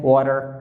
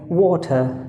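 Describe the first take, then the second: First: It is said in an American accent. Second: It is said in a British accent.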